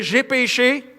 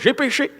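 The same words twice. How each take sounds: First: It is said haltingly, with a strained hesitation. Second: It is said lightly and easily, without hesitation. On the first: Admitting the sin is truly hard. The speaker calls it right. "quand tu as péché, dire « j'ai péché hmm. »" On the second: Admitting the sin costs nothing. The speaker calls it wrong. "Oh non, c'est facile, pasteur"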